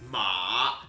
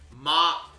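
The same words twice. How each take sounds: First: The pitch dips down and then rises. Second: The pitch stays high and level. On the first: It means horse. "Ma is down and up" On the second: It means mother. "ma is high"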